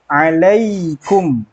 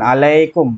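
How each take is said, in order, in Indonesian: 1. Bibir tetap tertutup pada m terakhir. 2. Bibir terbuka setelah m terakhir. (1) "mulut langsung mingkem" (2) "bukan alaikum"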